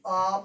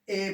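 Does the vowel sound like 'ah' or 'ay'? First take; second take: ah; ay. First: The vowel sounds like 'ah' in 'father'. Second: The vowel sounds like 'ay' in 'say'. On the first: The speaker calls it right. "हम ए नहीं पढ़ते हैं, बल्कि आ पढ़ते हैं।" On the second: The speaker calls it wrong. "ए का sound क्या पढ़ते हैं? ए पढ़ते हैं।"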